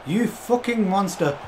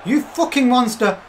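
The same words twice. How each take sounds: First: "You fucking monster" drawn out slow, stress on "You"; slow awed curse. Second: "You fucking monster" slow, higher and louder, "You" punched; excited shout. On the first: Streamer marvels at his player, slow and drawn out. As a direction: relish each word, impressed. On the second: Streamer roars praise at his player, higher and louder. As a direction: let the praise burst out. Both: Real, not acted.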